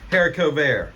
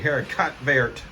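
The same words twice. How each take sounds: First: It is said with a French-style pronunciation. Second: It is said in an exaggerated hick accent.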